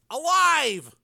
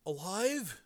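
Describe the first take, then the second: First: ALIVE cried out high and emphatic; relieved yell. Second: High but soft, dazed question; foggy. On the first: Frank telling his brother, relieved yell. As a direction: shout "Alive" as glad news. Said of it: "he yelled out in relief". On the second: Dazed brother echoing Frank, foggy voice. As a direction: echo "Alive" faintly, as if befuddled. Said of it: "Joe said foggily". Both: A narrator's reading.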